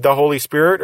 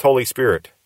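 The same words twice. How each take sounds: First: "the" said as a full, emphasized "thuh"; stressed article. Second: Said in the usual way. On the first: Shown as a demonstration. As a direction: lean on "the" before "Holy Spirit". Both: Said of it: "if the thes are there or not".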